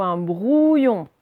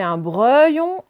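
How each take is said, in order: First: BROUILLON slow, with a long "ou"; trying both readings. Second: BREUILLON slow, with a long "eu"; trying both readings. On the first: Teacher testing two readings, slow clear BROUILLON. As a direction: draw out the "ouille" in BROUILLON. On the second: Teacher testing two readings, slow clear BREUILLON. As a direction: draw out the wrong "euille" in BREUILLON. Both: Shown as a demonstration. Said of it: "vous essayez".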